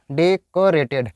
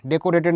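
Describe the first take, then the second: First: "डेकोरेटेड" slowly, deh-kuh-ray-ted; slow model of "डेकोरेटेड" with a schwa second syllable; correct pronunciation. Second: "डेकोरेटेड" as deh-koh-ray-ted; "डेकोरेटेड" with o kept in the second syllable; wrong pronunciation. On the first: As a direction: draw out "डेकोरेटेड" with uh after k. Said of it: "डेक बोलते हैं". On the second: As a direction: say "डेकोरेटेड" with a full round oh. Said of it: "डेकोरेटेड नहीं बोलना है". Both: Shown as a demonstration.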